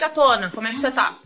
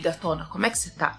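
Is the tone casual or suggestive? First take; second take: casual; suggestive. First: The tone is plain and casual. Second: The tone is suggestive and leering. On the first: A friendly greeting between people who are close. The speaker calls it right. "Não tem nenhum tipo de entonação" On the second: An unwelcome come-on from a stranger. The speaker calls it wrong. "Fica óbvio que a intenção é diferente"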